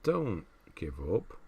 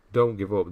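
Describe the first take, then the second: First: Gentle encouragement. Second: Firm encouragement. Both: Real, not acted. Encouraging a discouraged streamer.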